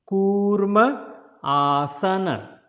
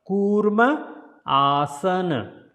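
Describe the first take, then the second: The two takes are said the same way.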